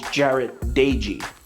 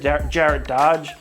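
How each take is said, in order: First: The surname sounds like two syllables, 'Dagey'. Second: The surname sounds like one syllable, 'Dodge'. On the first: The speaker calls it right. "the correct pronunciation is Jarret Dagey" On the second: The speaker calls it wrong. "I just said Jarret Dodge"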